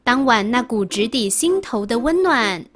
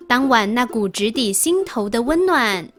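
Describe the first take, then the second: No difference in how they are said.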